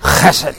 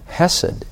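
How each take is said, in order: First: The first sound is a rough, throaty rasp. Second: The first sound is a soft, breathy h. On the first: The speaker calls it right. "it's called guttural. You have to ch" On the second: The speaker calls it wrong. "So it's not aspirated like chesed. No"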